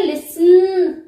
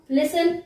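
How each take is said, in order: First: listen with a long, held final न; listen, ending exaggerated and drawn out; stretched last syllable. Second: Said in the usual way. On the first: Shown as a demonstration. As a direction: drag out the end of listen, louder. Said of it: "ये तो नहीं कह रहे". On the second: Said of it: "listen simple बोल रहे हो".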